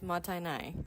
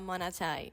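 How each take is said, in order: First: The second consonant is t, before n. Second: The second consonant is n, before t. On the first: The speaker calls it right. "it is motainai" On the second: The speaker calls it wrong. "It is not monatai"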